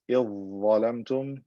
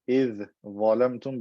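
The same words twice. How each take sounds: First: The dh sound merges into the z. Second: The dh sound is kept separate.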